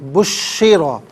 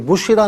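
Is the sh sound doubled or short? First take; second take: doubled; short. First: The sh sound is held and doubled. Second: The sh sound is short and single. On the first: The speaker calls it right. "शीन मुशद्दद है तो इसे जमाओं के साथ पढ़ेंगे" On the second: The speaker calls it wrong. "बुशिरा नहीं"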